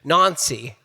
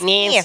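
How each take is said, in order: First: It is said in a British accent. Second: It is said in an American accent.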